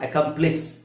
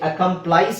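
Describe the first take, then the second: First: The last syllable rhymes with 'miss'. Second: The last syllable rhymes with 'ice'. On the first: The speaker calls it right. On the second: The speaker calls it wrong.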